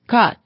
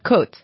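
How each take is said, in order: First: It is said like the word for rating. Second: It is said like the word for rib. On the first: The speaker calls it right. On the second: The speaker calls it wrong. "not côte"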